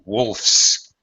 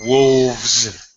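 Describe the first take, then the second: First: The word ends with a voiceless f-s sound. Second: The word ends with a voiced v-z sound. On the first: The speaker calls it right. "I simply say he wolfs. Now, notice my pronunciation change" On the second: The speaker calls it wrong. "I don't say he wolves down a sandwich"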